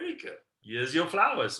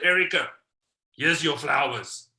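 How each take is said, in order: First: It is said in a warm, loving tone. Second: It is said in a flat, indifferent tone.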